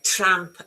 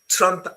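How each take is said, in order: First: The vowel sounds like the one in cat. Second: The vowel sounds like the one in cup. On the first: "Trump as in a cat" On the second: "Trump as in uh, cup"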